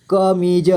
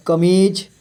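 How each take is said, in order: First: कमीज as क, मी, ज; letter by letter. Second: Said in the usual way. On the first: Shown as a demonstration. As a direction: sound the final ज of कमीज separately. (कमीज को तोड़कर: क, मी, ज) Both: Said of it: "थोड़ा फास्ट पढ़ेंगे".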